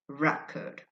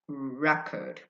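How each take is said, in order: Both takes have the same delivery.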